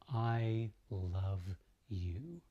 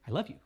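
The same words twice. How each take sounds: First: It is said slowly and smoothly. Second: It is said quickly and choppily.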